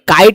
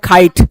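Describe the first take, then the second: First: The k is plain, without a puff of air. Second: The k is aspirated, with a puff of air.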